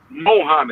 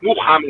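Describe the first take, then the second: First: The first vowel is an 'o' sound. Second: The first vowel is a 'u' sound. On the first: This is how outsiders say the name. The speaker calls it wrong. "they'll say Mohammed" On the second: This is how the name is properly said. The speaker calls it right. "his name is Muhammad. It's M U"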